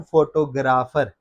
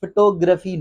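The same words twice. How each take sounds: First: फोटोग्राफर slow as FO-to-GRAA-far; full FO and long GRAA in फोटोग्राफर; wrong pronunciation. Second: फोटोग्राफी as fuh-TO-gruh-fee; weak first vowel, stressed TO in फोटोग्राफी; correct pronunciation. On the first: (फोटोग्राफर ग़लत, फ़ो-टो-ग्रा-फ़र) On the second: (फोटोग्राफी सही, फ़-टो-ग्रफ़ी) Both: Shown as a demonstration. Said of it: "not फोटोग्राफर".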